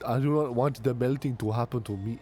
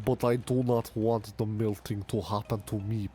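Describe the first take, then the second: First: It is spoken in a Jamaican-sounding accent. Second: It is spoken in a Russian-sounding accent. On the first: "That is Jamaican" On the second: "Mother Russia"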